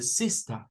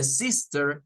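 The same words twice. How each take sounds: First: Sister ending in schwa, sista; British sister without r; non-rhotic sister. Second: Sister with a final er; American sister with final r; rhotic sister. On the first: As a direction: drop the r in sister. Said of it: "sino que dice sister". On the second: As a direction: sound the r in sister. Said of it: "no dice sister". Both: Shown as a demonstration.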